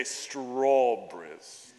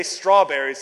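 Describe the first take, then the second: First: Put-on strawberries in an English accent, slow STRAW-bries with no r. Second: Said in the usual way. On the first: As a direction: draw out strawberries like a proper Englishman. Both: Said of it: "if you wanna practice an English accent".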